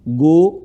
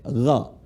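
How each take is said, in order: First: It starts with a plain hard g sound. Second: It starts with a rasping throaty gh sound. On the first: The speaker calls it wrong. "bukan kayak gojek ya" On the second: The speaker calls it right. "bukan go tapi ghajek"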